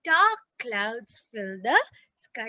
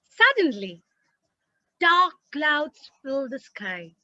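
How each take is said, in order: First: Slow "dark clouds fill the sky"; slow demo reading. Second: Small pause after "Suddenly," then slow; slow, with a beat after "Suddenly,"; tiny pause after "Suddenly,". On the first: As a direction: read slowly after the pause. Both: Shown as a demonstration. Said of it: "having a tiny little pause there".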